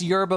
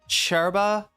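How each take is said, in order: First: The word begins with a y sound. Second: The word begins with a ch sound.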